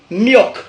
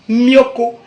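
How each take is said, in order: First: "milk" as one syllable, myok; English pronunciation. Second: "mioko" with an added final o; Godié pronunciation. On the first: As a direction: end "milk" on a closed k. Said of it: "en anglais, ça se dit". (« milk » à l'anglaise, finissant sur k) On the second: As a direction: open it out as myo-ko. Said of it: "en godié, nous on dit". (« mioko » à la godié, avec un o final) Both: Shown as a demonstration.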